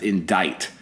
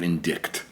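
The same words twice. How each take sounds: First: The word has no K sound before the T. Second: The word has a K sound before the T. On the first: "pronounced indict" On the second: "instead of indict"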